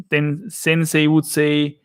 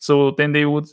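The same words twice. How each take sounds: First: "then they" said as "sen sey", slowly; slow Austrian-accented "then they", th turned to S. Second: Said in the usual way. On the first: Shown as a demonstration. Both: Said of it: "they always use the S for th".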